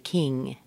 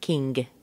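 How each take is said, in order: First: The word ends in a plain ng sound. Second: The word ends with an added hard g. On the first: The speaker calls it right. "It just represents ng-ng, as in king" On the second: The speaker calls it wrong. "not king"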